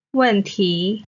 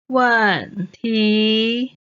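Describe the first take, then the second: First: Said in the usual way. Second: 问题 drawn out, 问 falling, 题 rising; stretched teaching 问题, falling 问, rising 题; fourth, second tone. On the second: Shown as a demonstration. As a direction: say 问题 syllable by syllable, falling then rising. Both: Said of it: "问 is the fourth tone".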